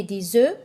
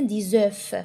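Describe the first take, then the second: First: "des œufs" as day-zeu, no f; silent final F. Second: "des œufs" as day-zeuf, audible f; final F sounded. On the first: Teacher giving first accepted form, "des œufs" said day-zeu. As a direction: link with z and leave "œufs" open on the vowel. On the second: Teacher giving second accepted form, "des œufs" said day-zeuf. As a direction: link with z and close "œufs" on f. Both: Shown as a demonstration. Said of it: "Les deux prononciations sont justes".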